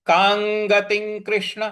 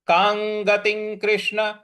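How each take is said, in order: Both takes have the same delivery.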